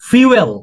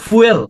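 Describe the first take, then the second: First: The word begins with a 'fyoo' sound. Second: The word begins with a 'foo' sound. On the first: The speaker calls it right. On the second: The speaker calls it wrong. "Not ফুয়েল"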